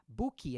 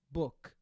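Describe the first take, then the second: First: The word ends with an extra ee vowel. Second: The word ends sharply on a bare k. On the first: The speaker calls it wrong. "a gente coloca esse izinho que está na frente e vira outra palavra" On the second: The speaker calls it right. "termina com K seco"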